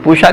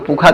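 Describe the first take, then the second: First: The middle consonant is a sh sound. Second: The middle consonant is a kh sound. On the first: "कुछ लोग पूषा कहते हैं" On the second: "पूषा को पूखा कहते"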